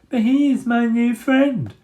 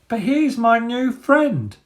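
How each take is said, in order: First: It is said in a mocking babyish voice. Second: It is said simply in a plain voice.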